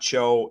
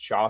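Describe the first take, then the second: First: The first name ends with an 'oh' vowel. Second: The first name ends with an 'ah' vowel. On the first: The speaker calls it wrong. "It's not Cho" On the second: The speaker calls it right. "That's how you say his name"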